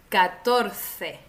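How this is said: The c is said between the teeth, like th. This is the usual form in most of Spain. "Comenzamos con España"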